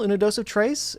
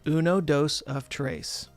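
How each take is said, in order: First: It is said fast. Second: It is said slowly.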